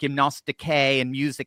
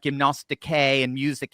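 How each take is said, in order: First: The words are said in an academic Greek pronunciation. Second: The words are said in an academic Greek pronunciation.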